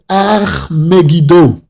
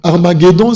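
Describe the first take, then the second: First: The name is said in a Hebrew-style pronunciation. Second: The name is said in a French-style pronunciation. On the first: "La véritable prononciation en hébreu" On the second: "c'est une prononciation un peu francisée"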